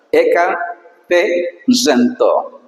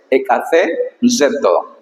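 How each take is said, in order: First: Eka, pause, te zento, slowly; split into two parts. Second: Ekace zeto run smoothly together, a bit slow; said as one word. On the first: Teacher breaking a hard Greek word for students, slow. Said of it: "puedes hacer como dos momentos". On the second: Teacher showing the exact Greek pronunciation, smooth. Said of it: "así exactamente". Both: Shown as a demonstration.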